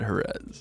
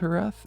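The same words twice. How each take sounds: First: The name is said with an English pronunciation. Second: The name is said with a Spanish pronunciation. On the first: "I should probably just call it Jerez" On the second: "properly pronounced it's Jerez"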